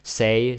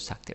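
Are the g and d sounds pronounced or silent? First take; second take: silent; pronounced. First: The g and d sounds are silent. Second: The g and d sounds are pronounced. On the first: The speaker calls it right. "the D is silent" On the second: The speaker calls it wrong. "many ways to get it wrong"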